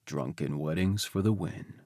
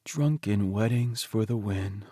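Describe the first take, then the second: First: Lower, quieter echo of the same line; agreeing husband. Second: Slow, lightly voiced Teddy, pleased and dreamy; contented husband. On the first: Acted. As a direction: agree fondly, dropping the voice down. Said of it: "I agree". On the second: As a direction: savour each word like a happy private joke. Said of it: "I huff a laugh".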